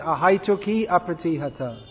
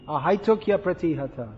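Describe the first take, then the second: First: A full i vowel stands before a separate apratihata. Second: The i glides into a y, one flowing word. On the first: The speaker calls it wrong. "You're chanting ahaituki apratihata" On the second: The speaker calls it right. "it should be ahaitukya pratihata"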